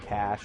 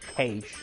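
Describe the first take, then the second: First: The word is said in an ordinary accent. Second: The word is said in an imitated regional accent.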